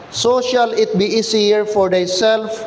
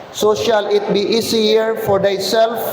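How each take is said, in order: No difference in how they are said.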